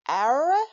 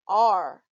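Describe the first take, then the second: First: It is said as two syllables, ah-ra. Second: It is said as one syllable, ar. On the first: The speaker calls it wrong. "You could try to sound it out" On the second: The speaker calls it right. "So the word is pronounced are"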